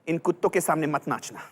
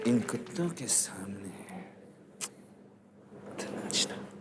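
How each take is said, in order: First: It is said in an angry tone. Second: It is said in a romantic tone.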